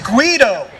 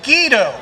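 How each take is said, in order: First: The name is said with an Italian pronunciation. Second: The name is said with an English pronunciation. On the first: The speaker calls it right. "the correct pronunciation, you know, Italian, is" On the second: The speaker calls it wrong. "back in the day, they knew me as"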